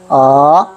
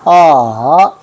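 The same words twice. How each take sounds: First: The pitch rises from low to high. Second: The pitch falls and then rises again. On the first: "밑에서 위로" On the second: "내려갔다가 다시 올라가는"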